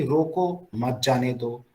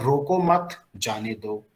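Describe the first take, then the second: First: रो को, then a break before मत जाने दो; pause after रो को. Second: रो को मत as one unit, then जाने दो; pause after मत. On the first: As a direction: put the comma right after रो को. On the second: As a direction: put the comma right after मत. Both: Shown as a demonstration. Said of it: "comma अगर आगे पीछे लगा".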